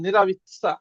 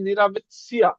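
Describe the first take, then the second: First: নেরাবিৎসা ending in a single syllable -tsa; corrected "sa" ending. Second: নেরাবিৎসিয়া with the ending opened into -tsi-ya; mistaken "sia" ending. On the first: Teacher correcting the learners' sia, নেরাবিৎসা with -tsa. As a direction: finish নেরাবিৎসা on tsa, dropping the i glide. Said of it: "ওটা সিয়া হবে না". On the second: Teacher showing how learners used to say it, ending -tsiya. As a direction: say নেরাবিৎসিয়া with an extra i glide before the final a. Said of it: "আমরা উচ্চারণ করতাম কি". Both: Shown as a demonstration.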